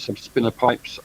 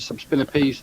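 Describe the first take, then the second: First: The word ends with a 'pipes' sound. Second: The word ends with a 'peace' sound. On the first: "Some people pronounce it subspinner pipes" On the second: "I pronounce it subspinner piece"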